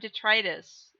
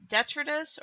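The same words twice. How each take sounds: First: The middle vowel is a long i. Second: The middle vowel is a short i. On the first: The speaker calls it right. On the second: The speaker calls it wrong.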